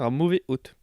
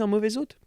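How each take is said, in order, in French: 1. Aucun son z ne relie mauvais et hôte. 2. Un son z relie mauvais à hôte. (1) "parce qu'il y a un H à hôte, on devrait dire un mauvais hôte" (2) "On ferait pas la liaison d'ailleurs"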